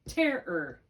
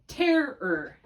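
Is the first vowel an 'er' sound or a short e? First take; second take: short e; short e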